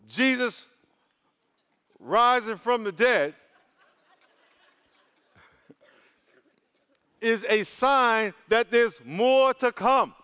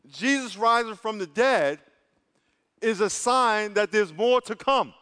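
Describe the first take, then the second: First: It is said at a slow pace. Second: It is said at a faster pace.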